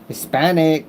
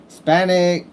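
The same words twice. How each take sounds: The two takes are said the same way.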